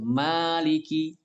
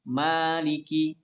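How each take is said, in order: First: The first vowel is held long. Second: The first vowel is held long.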